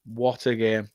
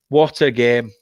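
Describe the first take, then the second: First: Softer repeat, trailing off to himself; quiet echo. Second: Said in the usual way. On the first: Real, not acted. Fan musing to himself after the win, soft. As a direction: murmur it again, savouring it.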